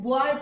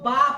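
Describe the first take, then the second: First: The vowel glides from 'o' to 'y'. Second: The vowel is a plain 'a' sound. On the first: "बॉय को" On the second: "बा पढ़ते थे"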